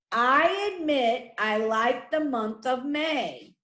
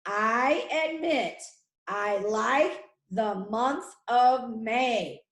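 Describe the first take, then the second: First: Said in the usual way. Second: Slow, phrase by phrase, with small pauses; slow dictation. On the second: Shown as a demonstration. Teacher repeating a sentence for pupils to write, slow dictation. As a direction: set each word out slowly for writing down.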